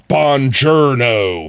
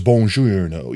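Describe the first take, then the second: First: Flat slow American "Buongiorno"; anglicized Italian greeting; American accent. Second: "Buongiorno" with rolled Italian lilt; attempted native Italian greeting; Italian accent. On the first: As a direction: say it like a tourist. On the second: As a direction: try to sound Italian. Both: Shown as a demonstration. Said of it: "I did both of those terribly".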